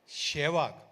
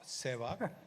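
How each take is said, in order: First: The name begins with a 'sh' sound. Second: The name begins with an 's' sound. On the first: This is how a teammate kept saying it. The speaker calls it wrong. "The pronunciation was always Shevag" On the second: This is the proper form of the name. The speaker calls it right. "not not Sevag"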